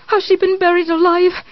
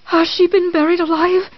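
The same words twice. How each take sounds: First: Even more frantic repeat; terrified, higher. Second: Terrified. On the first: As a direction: build the panic higher. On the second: Repeated terrified question. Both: Acted.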